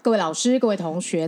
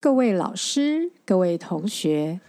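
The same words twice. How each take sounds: First: It is said fast. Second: It is said slowly.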